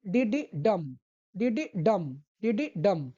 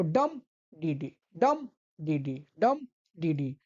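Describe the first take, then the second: First: "डी डी डम" with two light डी and a stressed डम; two quick light beats, then land on डम; anapest beat demo. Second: "डम, डी डी" slow and lower, stressed डम then two light डी; dactyl beat demo. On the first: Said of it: "sound जो इसका रहता है". (डी डी हल्का, डम पर ज़ोर) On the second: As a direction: hit डम, pause, then a light डी डी. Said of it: "इसका पहला आपको स्ट्रेस्ड रखना है". (पहले डम पर ज़ोर, डी डी हल्का) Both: Shown as a demonstration.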